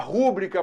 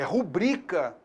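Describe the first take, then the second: First: The stress is on the first syllable. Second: The stress is on the second syllable. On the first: The speaker calls it wrong. "muita gente fala assim" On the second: The speaker calls it right. "Rúbrica não. É rubrica"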